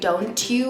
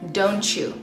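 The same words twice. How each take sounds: First: The t and y stay separate sounds. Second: The t and y merge into ch. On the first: The speaker calls it wrong. "you don't say don't you" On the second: The speaker calls it right. "you say don't you"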